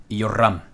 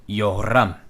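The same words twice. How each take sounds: Both takes have the same delivery.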